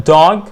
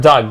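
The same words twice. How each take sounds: First: DOG with a long open vowel. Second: DOG said as "dug"; short "uh" in DOG; short vowel contrast. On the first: Teacher contrasting two words, long-vowel DOG. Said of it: "غير dog". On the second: Teacher showing the word with another meaning, short-vowel DOG. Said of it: "it gives a different meaning". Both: Shown as a demonstration.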